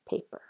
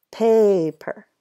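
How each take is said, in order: First: Said in the usual way. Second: "Paper" with a stretched PAY, then "per"; long A sound. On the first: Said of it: "Does it work with paper?". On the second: Shown as a demonstration. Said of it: "has to have my long sound".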